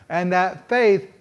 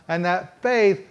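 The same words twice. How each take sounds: The two takes are said the same way.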